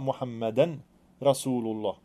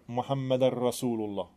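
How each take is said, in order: First: The d of Muhammad is clearly pronounced. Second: The d of Muhammad merges into the r. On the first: The speaker calls it right. "man ska uttala Muhammadan Rasulullah" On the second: The speaker calls it wrong. "man då inte uttalar ett dal utan man gör den till en ra"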